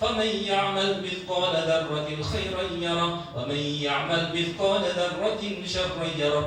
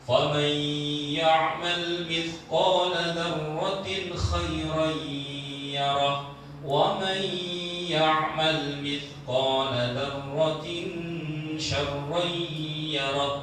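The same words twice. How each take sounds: First: The nasal hums are cut too short. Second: The nasal hums are held fully long. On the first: The speaker calls it wrong. "Bukan tartil itu. Karena dengungnya kurang" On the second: The speaker calls it right. "Contoh tartil"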